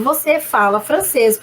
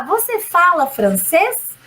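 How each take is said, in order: First: "você fala francês" low and even, no final lift; statement intonation. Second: FRANCÊS lifted at the end, slowly; question intonation. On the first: Teacher translating the affirmation, "você fala francês" as a low statement. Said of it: "eu estou afirmando". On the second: Teacher translating the example question, "você fala francês" slowly rising. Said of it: "você transforma em question". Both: Shown as a demonstration.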